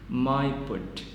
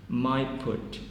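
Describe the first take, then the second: No difference in how they are said.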